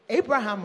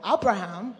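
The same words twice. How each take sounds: First: "Abraham" starting with a long AY sound; first pronunciation variant. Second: "Abraham" starting with an open AH sound; alternative pronunciation. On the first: Preacher offering one way to say the name, "Abraham" with an AY start. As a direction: say "Abraham" as AY-bra-ham. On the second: Preacher offering another way to say the name, "Abraham" with an AH start. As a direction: say "Abraham" as AH-bra-ham. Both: Shown as a demonstration. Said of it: "however you pronounce his name".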